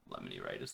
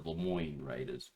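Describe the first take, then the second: First: The name sounds like the word lemony. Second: The name sounds like Lemoyne, ending in moyne. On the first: The speaker calls it wrong. "They're not the Lem- Lemony Raiders" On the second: The speaker calls it right. "they're the Lemoyne Raiders"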